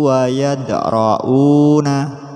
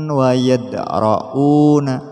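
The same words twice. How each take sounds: The two takes are said the same way.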